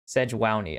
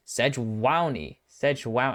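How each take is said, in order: First: Sejuani as "seh-HWAH-nee", savoured; Spanish-style pronunciation. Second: Sejuani as "seh-HWAH-nee", slow and savoured; Spanish-style pronunciation. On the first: Caster repeating Sejuani the way the Spanish casters say it. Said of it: "it's pronounced with the accent". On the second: Caster savouring how the Spanish broadcast says Sejuani. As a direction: roll out Sejuani the Spanish way, slowly. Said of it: "I like how they say it". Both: Shown as a demonstration.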